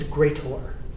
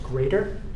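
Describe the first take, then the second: First: The ending is a clear, full 'or' sound. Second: The ending is a weak, reduced 'er' sound. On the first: "pronounce it as greater" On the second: "instead of pronouncing this symbol as"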